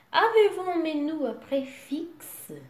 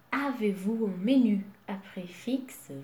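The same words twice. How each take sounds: First: Asked higher and louder; higher first take. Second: Said in the usual way. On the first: Shown as a demonstration. Customer asking a waiter, higher and louder. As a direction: ask the waiter brightly.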